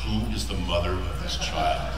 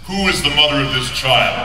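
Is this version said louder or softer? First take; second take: softer; louder. First: It is said more softly and quietly. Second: It is said loudly in a booming voice. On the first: "I did it again, a little softer" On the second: "I did a video game voice"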